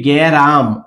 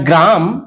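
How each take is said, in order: First: A vowel splits the opening consonant cluster. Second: The word begins with a consonant cluster. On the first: "এসছে মাঝখানে গ্যারাম" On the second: "গ্রাম থেকে গ্যারাম"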